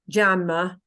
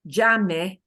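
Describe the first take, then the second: First: The word ends in a weak uh sound. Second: The word ends in a clear e vowel. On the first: The speaker calls it wrong. "that English habit of using the sound uh" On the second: The speaker calls it right. "We have to make sure we get that e, e ending of jame"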